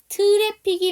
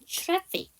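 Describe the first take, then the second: First: The opening is a plain separate 't' sound. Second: The opening is a blended 'ch'-like 'tr' sound. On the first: "트래픽이 맞는데" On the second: "tr 사운드니까"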